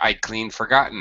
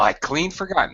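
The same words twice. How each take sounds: First: The phrase is said flatly, without strong stress. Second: The phrase is said with heavy, exaggerated stress. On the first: The speaker calls it wrong. "you don't say" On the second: The speaker calls it right. "You would exaggerate it with a, a an exaggerated stress"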